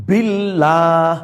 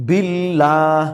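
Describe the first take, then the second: Both takes have the same delivery.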